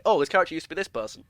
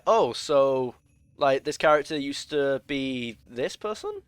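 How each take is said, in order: First: Quick matter-of-fact statement, falling on "person"; confident downward statement. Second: Slow and unsure, rising into a question on "person"; upward questioning inflection. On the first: Player stating known lore as fact, confidently, "person" falling. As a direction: state it as settled fact, letting "person" drop. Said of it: "you should be able to say". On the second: Player puzzling out a character's backstory, asking, with "person" rising. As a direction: draw it out, then lift "person" as if asking. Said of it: "like you're asking it as a question".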